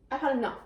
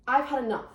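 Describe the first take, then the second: No difference in how they are said.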